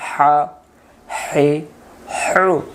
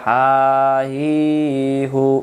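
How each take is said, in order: First: The h sounds are hissing and breathy, said quickly. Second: The h sounds are plain, without throaty hissing. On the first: The speaker calls it right. "শো শো করে তাড়াতাড়ি" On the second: The speaker calls it wrong. "উচ্চারণ হবে না"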